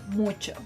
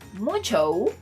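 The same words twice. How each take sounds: First: The final o is kept short. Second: The final o is drawn out long. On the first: The speaker calls it right. "The correct pronunciation would be mucho" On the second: The speaker calls it wrong. "you're wrong"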